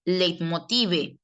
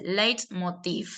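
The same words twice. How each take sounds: First: Leitmotive with a final spoken e, drawn out; spelled-out pronunciation. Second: Leitmotiv said slowly like an English word; English-style pronunciation. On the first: Teacher reading out the foreign word, slow and as written. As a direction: say leitmotive slowly, sounding the last e. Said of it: "usted lo pronuncia como si fuera". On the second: Teacher modelling the foreign word, slow English-style pronunciation. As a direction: stretch Leitmotiv, ending on the v. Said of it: "como si fuera una palabra del inglés". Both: Shown as a demonstration.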